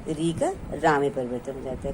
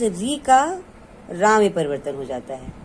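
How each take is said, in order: First: Said in the usual way. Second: Slow, stressed teaching of री का becoming रा; slow emphasis. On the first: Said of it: "तो उस री का". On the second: Shown as a demonstration. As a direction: spell the rule out word by word, slowly.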